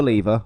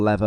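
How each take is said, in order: First: "lever" said as LEE-ver; long ee in "lever", rhyming with beaver; British pronunciation. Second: "lever" said as LEV-er; short e in "lever", rhyming with never; alternative pronunciation. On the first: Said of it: "or lever, or however you wanna pronounce it". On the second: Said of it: "or however you wanna pronounce it". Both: Shown as a demonstration.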